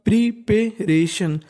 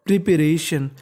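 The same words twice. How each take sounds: First: preparation stretched out very slowly; teacher modelling preparation slowly; slow syllable by syllable. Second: Said in the usual way. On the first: Shown as a demonstration. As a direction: sound out preparation slowly for learners. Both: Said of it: "तो meaning बन गई".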